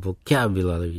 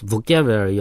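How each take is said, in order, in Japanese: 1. 最初の母音は弱い「uh」になります。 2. 最初の母音は、はっきりした「o」です。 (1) "vocabulary のV の後のO はうーなのね" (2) "日本語だと、ボキャブラリーは、カタカナで言うと"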